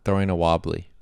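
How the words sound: It is said in an American accent. The speaker calls it wrong. "if I say it in an American accent"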